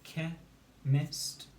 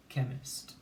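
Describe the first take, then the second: First: "ke, mist" as two detached beats; syllable by syllable. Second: Said in the usual way. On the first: Shown as a demonstration. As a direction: pause between "ke" and "mist". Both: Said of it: "with its syllables".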